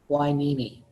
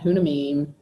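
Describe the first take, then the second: First: It is said as 'why-NEE-mee'. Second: It is said as 'HUN-a-mim'. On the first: The speaker calls it right. "that word is pronounced Whinimi" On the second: The speaker calls it wrong. "not Hunamim"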